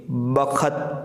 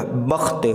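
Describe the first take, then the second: First: बखत, ख पूरा बोलकर, ब-ख-त तीन हिस्सों में; बखत को खींचकर पूरे ख के साथ पढ़ो; गलत उच्चारण. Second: बख्त, आधे ख के साथ, दो हिस्सों में; बख्त में ख आधा, सीधे त से जोड़कर; सही उच्चारण. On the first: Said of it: "अब जो बखत नहीं पढ़ेंगे". (बखत में ख पर स्वर लगाकर) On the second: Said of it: "बल्कि खो आधा हो जाएगा". (बख्त को छोटा, ख्त एक साथ) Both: Shown as a demonstration.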